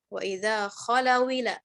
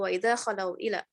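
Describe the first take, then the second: First: The glottal stop drops and the words merge. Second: The glottal stop before 'ila' is pronounced.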